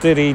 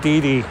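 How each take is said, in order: First: It sounds like the rapper's stage name. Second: It does not sound like the rapper's name. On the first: The speaker calls it wrong. "Not Diddy" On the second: The speaker calls it right. "It's Diddy"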